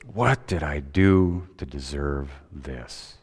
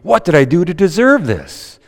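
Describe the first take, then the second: First: It sounds dismayed and upset. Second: It sounds delighted and grateful. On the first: Something bad has happened. "with some rotten luck" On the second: Something good has happened. "And it's good news"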